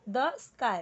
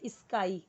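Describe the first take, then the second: First: The sky with a clean "sk" and no extra vowel before it; correct pronunciation. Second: स्काई said as "isskai" with an added i before the s; wrong pronunciation. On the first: Teacher models the right way for students: clean "sk" start. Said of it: "अब इसे कई सारे लोग the sky अगर पढ़ेंगे". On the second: Teacher shows students the wrong way: "isskai" with an extra i. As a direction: demo the learner's mistake, "isskai". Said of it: "तो वो wrong हो जाएगा ना". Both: Shown as a demonstration.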